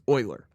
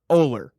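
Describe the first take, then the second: First: The name starts with an 'oy' sound. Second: The name starts with an 'oh' sound. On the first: The speaker calls it wrong. "The common one is Euler. What in there is oi?" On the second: The speaker calls it right. "It's Ohler. O H L E R"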